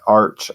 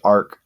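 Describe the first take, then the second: First: The word ends with a 'ch' sound. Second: The word ends with a 'k' sound. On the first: "How do you pronounce that?" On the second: "I think it's arc"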